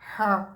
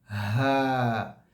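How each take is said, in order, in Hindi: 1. आवाज़ गले के ऊपरी हिस्से में अटकती है। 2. खुले गले से साँस आराम से बाहर निकलती है। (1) "बाज़ लोगों की आवाज़ ऊपर के हलक में अटक जाती है" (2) "इसमें हवा बाहर निकल रही है"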